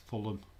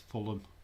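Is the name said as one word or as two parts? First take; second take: one word; one word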